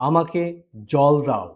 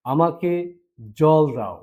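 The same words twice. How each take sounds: The two takes are said the same way.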